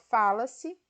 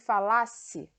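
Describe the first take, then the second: First: The stress is on the first syllable. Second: The stress is on the second syllable. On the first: An action is generalized in the present. "a sílaba tônica está no Fá" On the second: A hypothetical action in the past subjunctive. "a sílaba tônica é o lá e a pronúncia é diferente"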